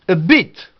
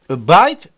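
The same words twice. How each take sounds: First: "bit" with a short ee-like i, punched. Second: "bite" with an eye diphthong, punched; long i. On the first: Teacher contrasting bit with bite, short vowel. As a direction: say "bit" with no glide. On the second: Teacher contrasting bite with bit, long eye vowel. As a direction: say "bite" as byte, gliding vowel. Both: Shown as a demonstration. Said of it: "On prend I".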